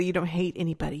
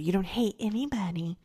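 First: Lightly voiced grandmother's correction; a hint of a chiding grandma; grandmother's admonishment. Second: Half-whispered imitation of grandma; grandmother's hushed admonishment. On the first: Grandmother telling a child not to hate, lightly imitated. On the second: Grandmother telling a child not to hate, imitated half-whispered. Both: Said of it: "she would say".

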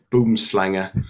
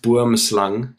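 First: "boomslanger" with an added "-er" ending; dustman's accented pronunciation. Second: "boomslang" said the Afrikaans way, ending on "slang" without "-er"; Afrikaans pronunciation. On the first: Retold or imitated. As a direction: imitate the dustman's mispronounced "boomslanger". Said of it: "to hear him in his accent say". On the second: Shown as a demonstration. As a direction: give "boomslang" its South African pronunciation. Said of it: "it's pronounced boomslang".

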